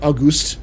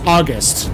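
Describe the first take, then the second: First: The name is said the fancy, posh way. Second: The name is said the plain, ordinary way. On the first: "it makes him sound a lot more, like, fancy" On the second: "his name is August"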